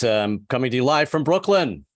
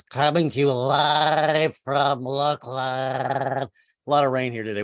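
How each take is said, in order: First: Said in the usual way. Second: Slow, announcer-style delivery; stretched-out newscaster drawl; news anchor voice. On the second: Shown as a demonstration. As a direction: read it like a TV field reporter. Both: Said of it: "I should be talking like this".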